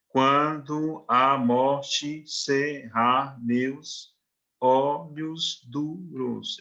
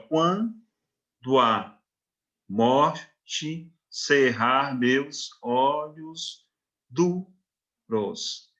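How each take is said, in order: First: "quando a morte cerrar meus olhos duros" spoken very slowly, every syllable separate, "quando" and "a" kept apart; "quando a" sounded as separate syllables, each one counted aloud. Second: "quando a morte cerrar meus olhos duros" very slow, "quando a" merged into one syllable; slow scanning read with "quando a" elided into one impulse; poetic scansion. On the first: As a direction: count out all twelve grammatical syllables slowly. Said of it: "Eu vou ter doze sílabas".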